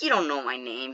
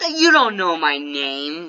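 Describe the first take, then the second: First: Said in the usual way. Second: Slow, stretched-out comeback; drawn-out retort. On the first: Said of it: "I'm just like". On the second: Retold or imitated. Kid telling a five-year-old he guessed wrong, drawn-out retort. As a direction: draw it out slowly, pointedly. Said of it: "not even rude about it".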